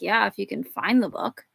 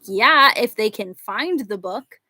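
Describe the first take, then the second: First: It is muttered quietly under the breath. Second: It is said louder, out in the open.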